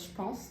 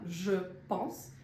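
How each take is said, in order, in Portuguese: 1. As palavras se juntam rapidamente formando uma só unidade. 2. Cada palavra é pronunciada separadamente e por completo. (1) "ela fala mais rapidinho" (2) "tudo separadinho"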